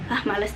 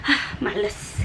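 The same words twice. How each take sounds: First: "Ah, males" softer, short and low; low lazy tone. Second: "Ah, males" short and softer, dipping low; low lazy tone. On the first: Teacher repeating tone three as reluctance. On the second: Teacher showing tone three as reluctance. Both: Shown as a demonstration. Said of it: "lebih pendek dan biasanya lebih rendah".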